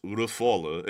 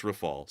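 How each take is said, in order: First: Rafale as ruh-FAW-luh; French-way pronunciation. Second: Rafale as ruh-FAWL; English pronunciation. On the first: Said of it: "saying it in the French way". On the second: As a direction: end Rafale cleanly on L, two syllables. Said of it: "If you're saying it in English". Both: Shown as a demonstration.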